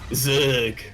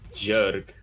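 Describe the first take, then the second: First: The word begins with a z sound. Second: The word begins with a j sound. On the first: This is the standard way to say the name. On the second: This is how Korean speakers say the name.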